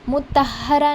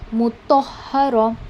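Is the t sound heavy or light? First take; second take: light; heavy. First: The t sound is light, like a plain ta. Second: The t sound is heavy, with an o-like color. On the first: The speaker calls it wrong. "मुतहरा पढ़ेंगे तो आप ता पढ़ रहे हो" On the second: The speaker calls it right. "ओ वाली साउंड इस लेटर में आपने डालनी है"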